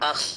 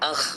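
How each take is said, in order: The two takes are said the same way.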